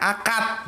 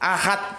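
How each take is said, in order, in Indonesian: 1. Konsonan tengahnya bunyi k yang keras. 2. Konsonan tengahnya bunyi h yang berdesah. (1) "orang Jawa nggak bisa bilang ahad, bilangnya akad" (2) "kata ahad"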